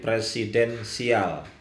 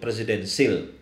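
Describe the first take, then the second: First: The word is said slowly, syllable by syllable. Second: The word is said at a normal quick pace. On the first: The presidency is unlucky. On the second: It is simply a presidential system.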